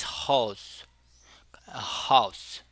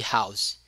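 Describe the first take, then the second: First: House with a closed, centralized vowel, near "hous"; centralized diphthong. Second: House with an open "ah-oo" glide; standard diphthong. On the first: Teacher showing the islanders' pronunciation, centralized diphthong. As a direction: say house as "hous", not wide "ow". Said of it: "Então eles pronunciavam mais". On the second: Teacher contrasting with the islanders, standard diphthong. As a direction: say house as "haus", starting wide open. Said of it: "ao invés de house". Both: Shown as a demonstration.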